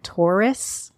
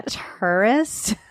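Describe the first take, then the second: First: Taurus said as "TOR-is" with an unsure rise. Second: "tourist" said slowly as "TUR-ist"; corrected pronunciation. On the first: Host asks co-host if she says it right, unsure. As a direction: try "Taurus" as "TOR-is", asking. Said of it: "I can never say the word right". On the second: Host repeats co-host's version, slowly and sure. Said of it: "you're saying it better than me". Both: Shown as a demonstration.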